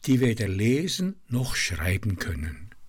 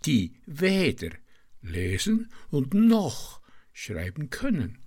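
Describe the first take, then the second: First: Weder and noch are said in the ordinary way. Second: Weder and noch are stressed in an unusual way.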